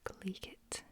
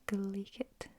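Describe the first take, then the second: First: Glaikit whispered, KLAY-kit; whispered Scots word. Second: Glaikit spoken aloud, KLAY-kit, a small rise at the end; voiced Scots word. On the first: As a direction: breathe out Glaikit softly. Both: Shown as a demonstration. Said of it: "Glaikit just means".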